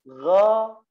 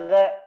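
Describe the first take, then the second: First: The letter is said with a thick, heavy sound. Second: The letter is said with a thin, light sound. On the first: The speaker calls it right. "Jadi menebal suaranya" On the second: The speaker calls it wrong. "Tidak boleh ga. Sama seperti ba"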